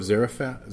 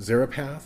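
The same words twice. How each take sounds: First: Zarephath slipped with an f sound, "Zera-fa"; slip of the tongue. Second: Zarephath said "Zera-path", with a p; corrected pronunciation. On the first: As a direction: stumble on Zarephath, saying "Zera-fa" with an f. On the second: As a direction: correct yourself: Zarephath with a clear p and final th. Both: Real, not acted. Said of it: "excuse me".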